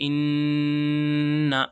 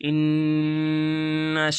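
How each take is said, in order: No difference in how they are said.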